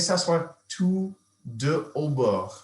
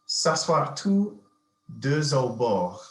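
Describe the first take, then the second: First: Deux and au are kept separate. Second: The x of deux links into au. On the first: The speaker calls it right. "you probably wouldn't want to elide it" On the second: The speaker calls it wrong. "you could elide"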